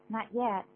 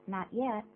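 Both takes have the same delivery.

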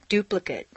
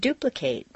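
First: The final syllable has a reduced vowel. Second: The final syllable has a full 'ate' vowel. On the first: It is used as a noun or adjective. "completely reduced" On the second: It is used as a verb. "it's a full A sound"

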